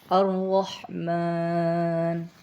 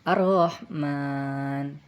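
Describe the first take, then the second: First: The r sound is heavy and thick. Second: The r sound is light and thin. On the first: The speaker calls it right. "harus tebal" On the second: The speaker calls it wrong. "tidak boleh"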